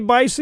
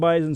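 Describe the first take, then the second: First: The middle consonant is a hissing S sound. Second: The middle consonant is a buzzing Z sound. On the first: The speaker calls it wrong. "He didn't say Bison" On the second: The speaker calls it right. "he said it right"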